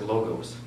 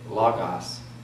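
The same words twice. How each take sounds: First: The first vowel is a short, quick 'oh'. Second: The first vowel sounds like 'ah'. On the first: "Just quick, quick O's" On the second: "I do Omicron as a ah"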